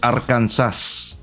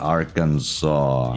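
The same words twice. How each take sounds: First: The word ends sounding like 'Kansas'. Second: The word ends with a soft 'saw' sound.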